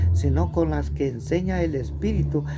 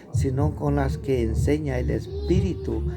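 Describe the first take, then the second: The two takes are said the same way.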